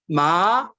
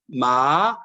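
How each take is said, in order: First: The pitch rises from middle to high. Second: The pitch dips low, then rises. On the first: It means hemp cloth. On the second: It means horse.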